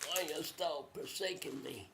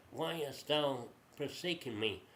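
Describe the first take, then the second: First: Hushed, acted lament; soft anguished plea. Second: Said in the usual way. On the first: Jesus on the cross to his Father, hushed plea. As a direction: plead softly, as if dying.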